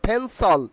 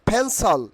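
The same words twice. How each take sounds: No difference in how they are said.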